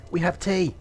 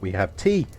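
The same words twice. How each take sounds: First: Excited emphasis. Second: Said in the usual way. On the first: Shown as a demonstration. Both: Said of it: "you don't know that we have tea".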